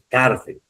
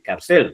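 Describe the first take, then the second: First: The stress is on the first syllable. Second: The stress is on the second syllable. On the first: The speaker calls it right. "Es cárcel, tilde" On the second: The speaker calls it wrong. "yo no puedo decir cárcel, ¿no? Está mal dicho"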